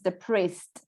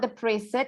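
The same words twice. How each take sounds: First: The final E is silent, giving two syllables. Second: The final E is sounded, giving three syllables. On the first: The speaker calls it right. "it's depressed. ... So we don't say that E" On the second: The speaker calls it wrong. "So it's not depressed"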